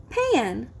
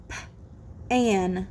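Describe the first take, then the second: First: Said in the usual way. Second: Puffed P, pause, low "an"; segmented sounds. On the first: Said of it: "you will blend the sounds". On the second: Shown as a demonstration. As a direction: split "P-an" for blending. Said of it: "I will say the sounds in a word".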